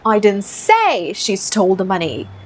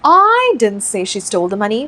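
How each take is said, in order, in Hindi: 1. Stress शब्द say पर है। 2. स्ट्रेस शब्द I पर है। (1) "डालते हैं स्ट्रेस से में" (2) "आई पे फोकस डालते हैं"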